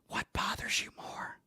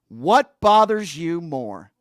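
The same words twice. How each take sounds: First: It is whispered slowly into the microphone. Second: It is spoken aloud in a full voice.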